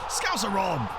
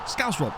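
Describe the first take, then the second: First: "Scouser Rob" with an extra -er on "Scouser", called out brightly; wrong name. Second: "Scouse Rob" with no -er, stress on "Scouse" and falling; corrected name. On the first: Streamer greeting a viewer, blurting "Scouser Rob" with the -er. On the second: Streamer correcting himself to a plain "Scouse Rob". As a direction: fix it to a clean "Scouse Rob". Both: Real, not acted. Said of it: "Sorry, Scouse Rob".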